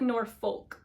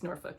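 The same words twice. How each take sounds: First: Every letter is sounded, just as it is spelled. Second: The word is shortened, with some letters left silent. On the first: The speaker calls it wrong. "It looks like Norfolk" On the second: The speaker calls it right. "but I think it's Norfolk"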